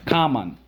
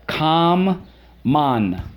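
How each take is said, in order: First: Said in the usual way. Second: Com-mon split into two stretched syllables; higher teacher model: Com-mon, syllable by syllable. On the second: Shown as a demonstration. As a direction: pull Com-mon apart, holding the m. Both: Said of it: "Common, let's go".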